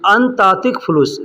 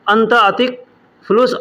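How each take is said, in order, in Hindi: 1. पहले दो शब्द आपस में जुड़े हुए बोले जाते हैं। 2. पहले दो शब्द अलग-अलग बोले जाते हैं। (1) "एक में मिला करके अंत और अतिक को एक में मिला करके बोला जाता है" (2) "अलग बोलेंगे"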